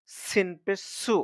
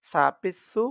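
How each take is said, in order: First: "সু" as a clean hissed S, slow and raised; tongue kept in. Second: "সু" lisped with tongue tip out, louder; tongue slightly out. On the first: Teacher contrasting letters for learners, "সু" with tongue kept in. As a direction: keep the tongue inside on "সিন পেশ সু". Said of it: "জিহ্বা বাহিরের দিকে আসবে না". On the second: Teacher repeating the letter for learners, "সু" with tongue slightly out. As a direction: bring the tongue forward on "সা পেশ সু". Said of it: "জিহ্বাটা একটু বাহিরের দিকে এনে". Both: Shown as a demonstration.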